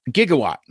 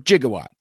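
First: "Gigawatt" with a hard g, as in go; hard-g pronunciation. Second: "Gigawatt" with a soft g, like jig; soft-g pronunciation. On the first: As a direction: say "Gigawatt" starting with a hard g sound. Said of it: "depending upon what your preferred pronunciation is". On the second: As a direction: say "Gigawatt" starting with a j sound. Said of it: "your preferred pronunciation". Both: Shown as a demonstration.

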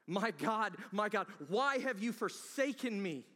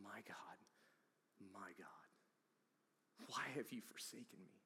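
First: Loud cry. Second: Whispered, much softer, anguished; hushed whisper. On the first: Same words cried aloud. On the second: The preacher voicing Jesus' last words, hushed whisper. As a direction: breathe the words out as the dying Jesus. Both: Acted.

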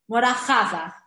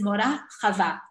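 First: "Chava" as CHA-va, first syllable stressed; in "Mora Chava", punch CHA and drop the end; Milael early stress. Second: "Chava" as cha-VA, last syllable stressed; in "Mora Chava", land on the final VA; Milera end stress. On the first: Teacher showing students the wrong way, "Chava" stressed first. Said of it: "not Milael". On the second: Teacher telling her students her name, "Chava" stressed at the end. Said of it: "because it's Milera". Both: Shown as a demonstration.

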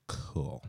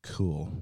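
First: "Cool." whispered, soft and falling. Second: Said in the usual way. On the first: Real, not acted. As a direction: whisper "Cool." sarcastically under the breath.

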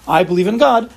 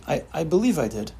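First: I believe in God said loud and sure; confident declaration of faith; firm belief. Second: Softer, hesitant I, I believe I did; doubtful half-answer; unsure belief. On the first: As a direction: state it as certain truth. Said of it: "One means you believe in a certain truth". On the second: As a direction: hedge it, not really sure. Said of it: "use believe in the total opposite way". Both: Shown as a demonstration.

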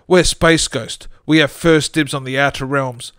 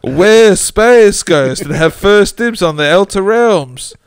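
First: Comedic ghost voice. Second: Slow, higher, much louder ghost wail with laughter; comedic ghost voice. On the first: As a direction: moan it like a cartoon ghost. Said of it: "in a comedic ghost voice". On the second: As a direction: ham up a cartoon ghost while cracking up. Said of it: "Well, he didn't, but". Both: Acted.

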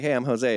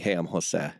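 First: Jose said the English way, ho-ZAY, a little higher; anglicized name. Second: Introducing himself with Jose in Spanish sounds; Spanish pronunciation. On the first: Introducing himself to Latin people, Jose said as ho-ZAY. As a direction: introduce yourself as ho-ZAY out of habit. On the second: Introducing himself in Utah, Jose said the Spanish way. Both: Retold or imitated. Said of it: "I'm just so used to saying it this way".

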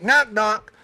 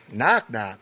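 First: Put-on higher, louder "Knock, knock" sung out like a kid starting a joke; chirpy kid opener "Knock, knock"; friend's knock knock. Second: "Knock, knock?" repeated lower, flat and baffled; puzzled echo. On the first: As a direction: classmate eagerly launching a joke. School friends telling a joke. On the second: Retold or imitated. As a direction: say "Knock, knock?" back as if it's nonsense. Puzzled kid replies to joke.

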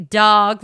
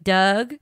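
First: Said in the usual way. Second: "Doug" as the local way of saying dog; Baltimore pronunciation. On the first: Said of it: "some people say". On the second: Shown as a demonstration. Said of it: "dog like Doug".

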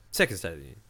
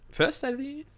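First: Said in the usual way. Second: Rising, doubtful question. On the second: Real, not acted. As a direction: check yourself, unsure.

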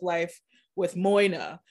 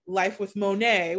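First: MOINA said as spelt, MOY-nah; phonetic name reading. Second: MONET said moh-NAY; family pronunciation. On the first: Host reintroducing the old show name, "Moina" read phonetically as MOY-nah. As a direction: say "Moina" phonetically, with an OY in the first syllable. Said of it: "pronouncing my name that way". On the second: Host rebranding the show with the family name, "Monet" said moh-NAY. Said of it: "pronounces M O Y N A as Monet". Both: Shown as a demonstration.

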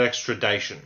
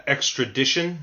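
First: Extradition said with a long "eye" vowel, like "dye-shun"; wrong pronunciation. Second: Extradition said with a short "dish" sound in the third syllable; correct pronunciation. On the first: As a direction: say extradition as "ex-tra-DIE-shun". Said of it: "not extradition". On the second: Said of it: "the word is pronounced". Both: Shown as a demonstration.

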